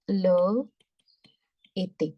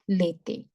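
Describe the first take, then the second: First: The two words are said separately, both vowels kept. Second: The two words are merged, first vowel dropped.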